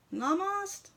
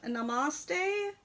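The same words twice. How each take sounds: First: Namaste cut to nah-MAHST, rising like a question; questioning alternative pronunciation. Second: Namaste in three syllables, nah-mah-STAY; tentative pronunciation. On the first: Host unsure of the horse's name, Namaste questioned as nah-mahst. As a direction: try Namaste without the final "ay", pitched up as a query. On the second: Host unsure of the horse's name, Namaste said as nah-mah-stay. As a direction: say Namaste ending in a long "stay". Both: Shown as a demonstration. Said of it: "don't know how to pronounce".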